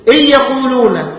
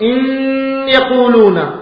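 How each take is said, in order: First: The n merges into the y without nasal hum. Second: The n stays separate but is held nasally. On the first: "ستأتي بالإدغام بدون غنة" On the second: "أتيت بغنة في النون ولم تدغم"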